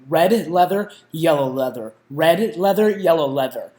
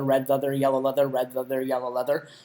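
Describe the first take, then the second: First: The phrase is said slowly with careful enunciation. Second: The phrase is said at a quicker pace.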